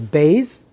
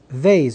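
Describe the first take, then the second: First: It begins with a hard B sound. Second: It begins with a soft V sound. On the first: "like a B ... So Bays is the harsh pronunciation" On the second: "which is a V ... Vase is the light pronunciation"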